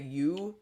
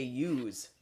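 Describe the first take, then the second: First: Said in the usual way. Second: "yous" with an added z sound; dialect plural. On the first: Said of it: "They say, instead of". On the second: Shown as a demonstration. Showing what northerners say, "yous" ending in z. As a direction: say "yous", you plus a final z. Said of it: "they say".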